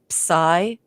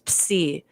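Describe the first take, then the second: First: The word is said with an English pronunciation. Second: The word is said with a Greek pronunciation. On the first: "If you're going to anglicize uh, Greek, uh, they say psi" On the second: "it's actually a letter of our alphabet, so it's psi"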